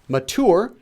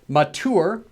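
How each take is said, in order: First: It is pronounced closely following its spelling. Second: The same.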